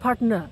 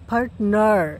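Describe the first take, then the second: First: The word ends without any r sound. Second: The word ends with an audible r sound. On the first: "শেষে যদি আর থাকে তাহলে আর উচ্চারণ হয় না" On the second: "নার যে বললাম"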